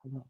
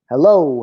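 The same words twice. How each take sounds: First: HELLO barely audible, very softly; whispered hello. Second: HELLO called out firmly, somewhat louder; the peak hello, a half-held yell; mild demo yell. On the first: Leading an echo exercise, whispered hello. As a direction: start with the faintest hello. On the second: Crescendo of an echo exercise, mild yell of hello. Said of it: "until you finally just yell". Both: Shown as a demonstration.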